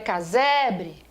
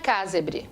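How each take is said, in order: First: The stress falls on the middle syllable se. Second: The stress falls on a syllable other than se. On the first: The speaker calls it right. "a palavra é casebre" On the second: The speaker calls it wrong. "a palavra não é casebre"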